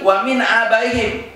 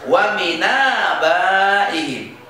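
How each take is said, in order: First: Said in the usual way. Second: Slow "Wa min abaihim", n gliding into a long aa; joined recitation. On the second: Shown as a demonstration. Teacher demonstrates how it reads, slow and joined. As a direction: link "min abaihim" as mi-naa-baihim, no glottal stop. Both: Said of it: "berarti apa?".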